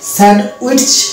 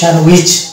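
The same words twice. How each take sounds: First: The d and t sounds are clearly pronounced. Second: The d and t sounds are left silent. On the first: The speaker calls it wrong. "টয়ে চয়ে যুক্ত করে দেবো উইচ" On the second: The speaker calls it right. "ডি এবং টি ... silent letter"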